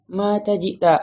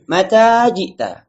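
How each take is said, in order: First: "mata jita" higher but unprojected, short second a; with feeling. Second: Mata jita slow and loud, second a held long; "Mata jita" projected high, with long "taa"; long vowel. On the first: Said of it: "Kalau kita pakai perasaan". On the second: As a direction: stretch the end of "Mata" before "jita". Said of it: "Akhirnya yang panjang kita pendekkan". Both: Shown as a demonstration.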